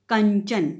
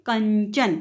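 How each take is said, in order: First: कंचन with the nasal before च said clearly; anusvara demo. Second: कंचन again, nasal before च; anusvara demo. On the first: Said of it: "word लिखा है कंचन". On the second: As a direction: repeat कंचन with a clear nasal. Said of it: "फिर से बोल के देखिए". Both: Shown as a demonstration.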